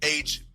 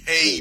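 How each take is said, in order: First: The letter is said as 'aitch'. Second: The letter is said as 'hey'. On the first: The speaker calls it right. "My man, H B C U, sir" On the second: The speaker calls it wrong. "not Hey"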